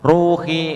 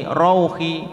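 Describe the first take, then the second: First: "Ruhi" with a loud long u; ru panjang. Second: "rauhi" high, with short au glide; rau pendek. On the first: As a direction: hold the u in "Ruhi". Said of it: "dibaca panjang". ("Ruhi" dengan ru panjang) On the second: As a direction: close RAU of "rauhi" on a clear u. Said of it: "wawunya seperti u". ("rauhi" pendek dengan wawu seperti u) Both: Shown as a demonstration.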